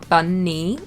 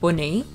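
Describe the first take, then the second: First: The vowel is said with a southern English accent. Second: The vowel is said with a northern English accent. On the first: "so that I say bunny" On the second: "Sometimes my northern accent comes out"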